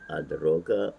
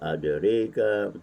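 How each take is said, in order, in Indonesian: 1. Vokal setelah r adalah a terbuka penuh. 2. Vokal setelah r condong ke arah e. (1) "ada yang baca dengan fathah" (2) "dengan imalah"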